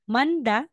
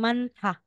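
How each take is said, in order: First: The middle consonant is plain, without a puff of air. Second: The middle consonant is aspirated, with a puff of air. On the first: The speaker calls it wrong. "Aside na sasabihin mong manda" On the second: The speaker calls it right. "magiging mantha"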